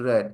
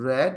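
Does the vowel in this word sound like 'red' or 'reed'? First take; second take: red; red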